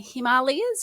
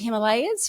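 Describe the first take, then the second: First: The name is said the Indian way. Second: The name is said the usual English way.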